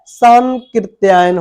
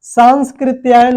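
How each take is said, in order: First: सांकृत्यायन as 'saan-kri', no inner s; correct pronunciation. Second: सांस्कृत्यायन with an s before 'kri'; wrong pronunciation. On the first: Teacher giving the right name, without inner s. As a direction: go from nasal straight to k in सांकृत्यायन. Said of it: "एक शुद्ध शब्द है". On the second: Teacher rejecting the faulty name, extra s inside. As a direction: sound 'saans-kri' in सांस्कृत्यायन. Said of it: "सांस्कृत्यायन नहीं होता है". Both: Shown as a demonstration.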